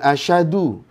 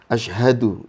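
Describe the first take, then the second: First: The h sound after sh is left out. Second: A clear h sound follows the sh. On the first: The speaker calls it wrong. "Jangan asyadu, beda makna" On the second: The speaker calls it right. "Ashha, haknya jelas"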